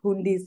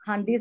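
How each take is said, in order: First: The first vowel sounds like 'u' in 'put'. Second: The first vowel sounds like 'a' in 'hun'. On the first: The speaker calls it wrong. "And not హుండీస్" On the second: The speaker calls it right. "This should be pronounced as హండీస్"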